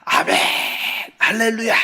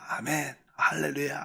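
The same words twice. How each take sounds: First: It is shouted loudly and fervently. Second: It is said quietly and gently.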